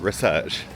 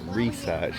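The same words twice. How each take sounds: First: It is said with a British accent. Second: It is said with an American accent. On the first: The speaker calls it right. "not research" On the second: The speaker calls it wrong. "Why are we talking American? We're saying research"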